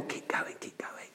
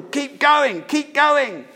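First: Barely audible soft whisper; hushed mock-tender whisper; tender, gentle. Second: High, forceful urging yell; brutal, high-pitched rallying shout. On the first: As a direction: whisper it like a gentle, timid encouragement. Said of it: "it's not a tender, gentle". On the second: Acted. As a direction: drive them on relentlessly. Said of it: "It's a brutal".

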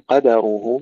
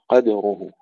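First: قدره with a full "a" after the دال; open dal. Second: قدره with a vowelless, bouncing دال; qadruhu, دال released with qalqalah; bounced still dal. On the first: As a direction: say قدره as qadaruhu. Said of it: "بفتح الدال". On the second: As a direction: echo the دال in قدره briefly before the راء. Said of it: "نحقق لهم القلقلة". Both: Shown as a demonstration.

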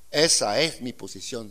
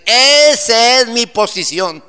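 First: Said in the usual way. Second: High, loud, slow preacher's cry; booming sermon proclamation; shouted climax. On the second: Shown as a demonstration.

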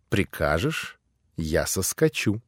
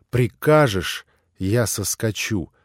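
First: Soft, lower, rising tender offer; coaxing. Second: Said in the usual way. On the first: A narrator's reading. Grushenka on Alyosha's lap offers softly, rising, tender. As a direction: coax him gently, lips close.

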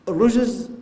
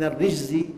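First: الرجز with a u: ar-rujz, high and loud; damma on the ر. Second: الرجز with an i: ar-rijzi; kasra on the ر. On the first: Preacher naming sins by the damma form, الرجز said "ar-rujz". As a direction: punch الرجز as "ar-rujz", short u. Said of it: "بالضم". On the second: Preacher naming punishment by the kasra form, الرجز said "ar-rijzi". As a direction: say الرجز as "ar-rijzi", short i after ر. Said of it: "بالكسر العذاب". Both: Shown as a demonstration.

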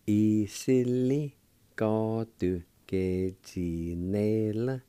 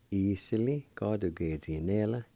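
First: E-si-li, ka-du, ge-zi-ne-la slowly, syllables drawn out; syllable-by-syllable pronunciation. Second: Said in the usual way. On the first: Shown as a demonstration. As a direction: sound out E-si-li, ka-du, ge-zi-ne-la part by part. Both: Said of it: "Then together".

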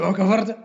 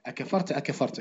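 First: أكفرت asked with a high rising question tune; teacher shows أكفرت wrongly read as a surprised question. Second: أكفرت أكفرت read with a falling, lowered tune, not a question. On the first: Teacher shows students the wrong reading, a rising question. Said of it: "ولا تشوف". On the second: Teacher shows students the right reading, soft and falling. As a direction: say أكفرت low and falling, softly, as a plain statement. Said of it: "اقرأها وهبط عينك حتى لا يتوهم". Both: Shown as a demonstration.

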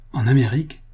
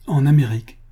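First: Questioning repeat rising on AMÉRIQUE; involuntary echo. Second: Firm, louder statement falling on AMÉRIQUE; plain answer. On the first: Visitor repeats the servant's answer, involuntary echo. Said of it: "répétai-je involontairement". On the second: Servant tells the visitor where he went, plain answer. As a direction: answer outright, AMÉRIQUE dropping at the end. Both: A narrator's reading.

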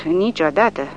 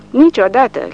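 First: Said in the usual way. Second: Niciodată said higher and louder, falling hard; Niciodată stressed loud and high, then dropping; emphatic never. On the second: Acted. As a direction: bark out Niciodată with full force.

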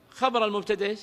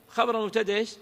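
No difference in how they are said.

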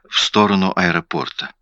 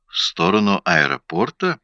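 First: "В сторону аэропорта" as a plain answer, ending on a fall; falling statement. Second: "В сторону аэропорта?" rising sharply at the end; echoed question. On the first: Witness answers detective, "В сторону аэропорта" as a falling statement. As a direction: state "В сторону аэропорта" with a closing downward tune. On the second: Detective echoes witness's answer, "В сторону аэропорта?" as rising question. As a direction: muse "В сторону аэропорта?" with a final questioning rise. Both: A narrator's reading.

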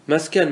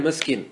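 First: مسكن said "maskan", with an a; fatha form. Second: مسكن said "maskin", with an i; kasra form. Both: Shown as a demonstration. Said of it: "ما ورد بالوجهين".

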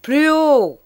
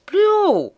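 First: Loud, high teacher's shout; teacher shouting at a mumbling pupil; shouted order. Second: Even higher, fully shouted; teacher shouting louder still. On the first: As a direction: yell it across the classroom. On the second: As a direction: yell it again, losing patience. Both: Acted. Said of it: "cria le maître".

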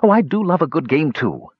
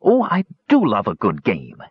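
First: Higher, a touch of gleeful echo; the sidekick happily parroting his leader; eager Talaran. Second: A hint of cheerful kender relish; delighted Cronin. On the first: Acted. Talaran echoes Cronin's delight, mildly gleeful. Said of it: "he said". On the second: Cronin welcomes Toad's hunt, lightly delighted. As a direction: savour the word do, pleased. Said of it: "Cronin smiled broadly with realization".

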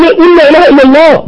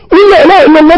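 First: Urgent pleading. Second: Rising urgent plea. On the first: A passenger pleading with the dying man, higher and urgent. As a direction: beg him to repeat the words. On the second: A passenger begging the dying man again, more urgent. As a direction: push harder each time. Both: Retold or imitated.

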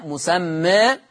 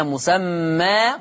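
First: مسمى ending between "aa" and "ee"; "musammee", final vowel slightly fronted; taqlil. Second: مسمى ending in an open long "aa"; fath. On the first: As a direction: tilt the final long a of مسمى toward e. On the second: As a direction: say "musammaa" with full open final vowel. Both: Shown as a demonstration. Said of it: "أي فيه الفتح والتقليل".

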